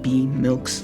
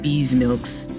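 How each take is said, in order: First: The first part is a plain 'B' sound. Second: The first part is 'Bees' with a 'z' sound. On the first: The speaker calls it right. "That's how you pronounce it" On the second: The speaker calls it wrong. "not Bees Milks"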